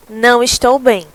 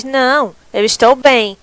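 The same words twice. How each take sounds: First: "Não estou bem" run together, stress on "não"; no pause, one phrase. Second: A clear pause after "Não," then "eu estou bem"; pause at the comma. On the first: Teacher showing students the sentence without the comma, in one breath. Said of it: "vai ficar". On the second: Teacher showing students the comma pause after "Não," before "eu estou bem". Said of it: "se eu não colocar essa vírgula". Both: Shown as a demonstration.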